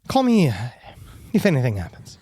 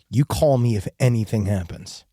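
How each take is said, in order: First: The line sounds nervous and hesitant. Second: The line sounds stern and firm.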